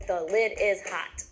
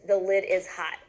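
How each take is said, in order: First: Each word of "The lid is hot" hit slowly and separately; pounded word by word. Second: Said in the usual way. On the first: Shown as a demonstration. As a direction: tap out "The lid is hot" one beat per word, slow. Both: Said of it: "I'm gonna pound that sentence for you".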